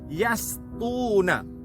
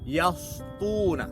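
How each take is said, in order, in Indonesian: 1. Bunyi s itu tipis dan ringan. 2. Bunyi s itu tebal dan berat. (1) "dengan huruf sin" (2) "disebut dengan tebal"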